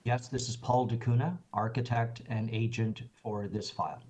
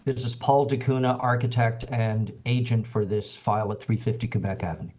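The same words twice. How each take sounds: First: Real soft, under-projected introduction; too quiet. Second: Speaking up. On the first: Agent introduces himself to the committee chair, too quietly. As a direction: speak softly, barely carrying to the listener. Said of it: "Could you speak up a little louder?". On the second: Agent repeats his introduction after the chair's request, speaking up. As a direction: project a bit more so the chair hears. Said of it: "Yes, that's better". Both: Real, not acted.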